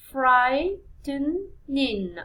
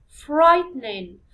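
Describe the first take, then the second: First: Stretched out very slowly, syllable by syllable; slow, drawn-out syllable count; very slow drawn-out word. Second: Louder, slower model word for the class; loud teacher modelling. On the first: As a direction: draw the word out for students to count. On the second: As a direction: call the word out clearly to the class. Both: Shown as a demonstration. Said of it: "So it's three syllables".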